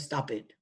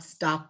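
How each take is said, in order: First: The ending is an extra id syllable. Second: The ending is a voiced d sound. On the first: "or stopped" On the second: "not stopped"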